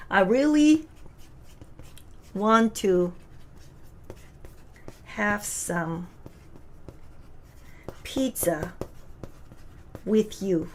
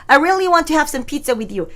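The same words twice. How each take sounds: First: Each word split off by long pauses, trailing softer; slow word by word. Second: One slow, steady phrase with a laugh; slow and even. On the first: Teacher reading the English line word by word. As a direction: read it one word at a time. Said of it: "그러면". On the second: Teacher reading the English line in one go. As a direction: read the line as a single chunk. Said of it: "이게 한눈에 보이세요". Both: Shown as a demonstration.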